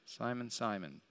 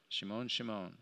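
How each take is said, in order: First: Said in the usual way. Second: "Shimon, Shimon" the Hebrew way, quiet and low. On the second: Shown as a demonstration. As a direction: say "Shimon" with a soft sh, Hebrew style.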